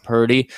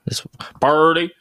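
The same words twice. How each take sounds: First: Slight redneck twang on "Purdy"; redneck accent. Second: Hammed-up redneck "Purdy", slowly drawn out; redneck accent. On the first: Real, not acted. Podcast host naming a rookie quarterback, slight redneck accent. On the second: Host teased by co-host about a player's name, hammed-up redneck accent. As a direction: stretch "Purdy" into an exaggerated redneck drawl. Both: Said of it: "saying it like a redneck".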